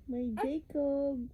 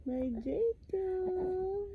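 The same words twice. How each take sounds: First: Said in the usual way. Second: Slow and drawn out, a touch higher; drawn-out coo. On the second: Real, not acted. Mother cooing her baby's name, slow drawn-out coo. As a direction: stretch the name lovingly.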